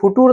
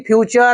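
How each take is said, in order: First: The middle consonant is a plain t sound. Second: The middle consonant is a ch sound. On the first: The speaker calls it wrong. "ये फुटूर नहीं है जी" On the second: The speaker calls it right. "फ्यूचर है"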